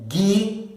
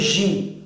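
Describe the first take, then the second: First: It starts with a hard G sound. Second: It starts with a soft J sound. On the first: The speaker calls it right. "Como começa com G, então vai ficar" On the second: The speaker calls it wrong. "Não tem o som J. Não ficaria G e nem Gi"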